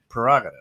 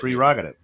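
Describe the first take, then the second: First: The first syllable is pronounced 'per'. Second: The first syllable is pronounced 'pre'. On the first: The speaker calls it wrong. "But we say prerogative" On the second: The speaker calls it right. "it's P R E. It's prerogative"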